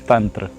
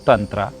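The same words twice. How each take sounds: First: The word ends on a consonant, no final vowel. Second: The word ends with an added ah vowel. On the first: The speaker calls it right. "actual word is Tantra" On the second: The speaker calls it wrong. "the actual word is not Tantra"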